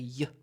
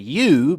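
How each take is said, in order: First: The word is reduced to a weak schwa. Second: The word has its full, strong vowel. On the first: The speaker calls it right. "it will be better probably to say y. Y. Once again, uh, schwa" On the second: The speaker calls it wrong. "We can say you"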